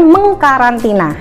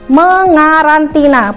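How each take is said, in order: First: A k sound is heard after the ng. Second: No k sound is heard after the ng. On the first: The speaker calls it wrong. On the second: The speaker calls it right.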